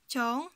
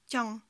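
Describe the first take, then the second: First: The vowel is held long. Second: The vowel is cut short. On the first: The speaker calls it wrong. "au lieu de dire tiang" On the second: The speaker calls it right. "banta, ça sert à raccourcir le son des syllabes"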